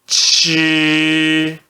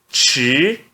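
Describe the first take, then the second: First: It is said with the first tone. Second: It is said with the second tone. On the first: "C H no primeiro tom" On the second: "no segundo tom"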